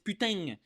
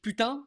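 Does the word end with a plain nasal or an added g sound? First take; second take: added g; plain nasal. First: The word ends with an added g sound. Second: The word ends on a plain nasal vowel. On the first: "there's a G at the end" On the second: "instead of just putain"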